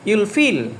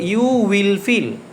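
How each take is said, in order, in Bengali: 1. 'You will' এক সিলেবলে সংকুচিত হয়। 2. 'You will' দুটি পূর্ণ শব্দ হিসেবে বলা হয়। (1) "এটাকে তোমরা পড়বা এভাবে" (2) "এটা মূলত ছিল ইউ উইল ফিল"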